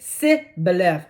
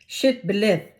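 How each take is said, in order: First: The word begins with a plain 's' sound. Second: The word begins with an 'sh' sound. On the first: The speaker is an Ephraimite. The speaker calls it wrong. "And they said si" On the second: The speaker is a Gileadite. The speaker calls it right. "They put a S H"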